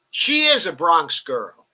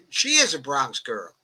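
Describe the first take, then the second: First: Slow, louder, leaning on is; emphatic affirmation. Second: Laughing repeat. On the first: Host vouching for AOC to the chat, slow and emphatic. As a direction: stretch it out, firmly stressing is. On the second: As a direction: say it again, amused, at normal level. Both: Real, not acted.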